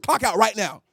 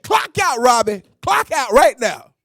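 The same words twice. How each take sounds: First: Said in the usual way. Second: Angry command. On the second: Retold or imitated. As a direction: make him clock out now. Angry manager repeats order.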